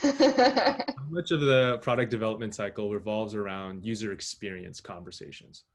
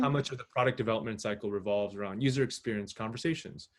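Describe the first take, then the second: First: It is said really slowly. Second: It is said at a normal pace.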